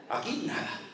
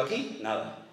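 First: Aquí nada repeated as a laughing whisper. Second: Said in the usual way. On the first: Retold or imitated. Pastor answers a sister at the empty tomb, in a laughing whisper. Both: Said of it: "Le digo".

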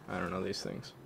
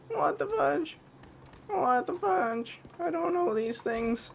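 First: Said in the usual way. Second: Slow, very high squeaky voice; silly high voice. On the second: Pretend. Gamer confused by the game, slow high squeak. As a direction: stretch it out in a goofy squeak. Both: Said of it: "I gotta stop doing that voice".

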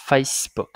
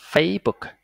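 First: "Facebook" with a clear hissed S mid-word; S sound pronounced. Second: "Facebook" said as "Fay-book"; missing S sound. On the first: Teacher models the corrected reading, "Facebook" with audible S. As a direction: sound the S in "Facebook", FACE-book. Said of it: "C E chuyển thành S". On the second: Teacher demonstrates the wrong reading, "Facebook" without its S. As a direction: leave the S out of "Facebook". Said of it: "nó còn thiếu âm C E chỗ này". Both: Shown as a demonstration.

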